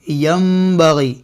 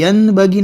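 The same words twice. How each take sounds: First: Slow यंबगी said as yambagi; m sound. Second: यनबगी with a clear n; wrong n. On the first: Quran teacher gives students the correct reading. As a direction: slowly turn the n in यंबगी to m. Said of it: "यनबगी नहीं". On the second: Quran teacher shows students the wrong reading. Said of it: "नहीं". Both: Shown as a demonstration.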